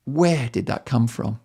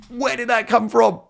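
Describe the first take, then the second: First: Said in the usual way. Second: High, startled self-question; shocked at himself. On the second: Real, not acted. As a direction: gasp it out, amazed at your own words.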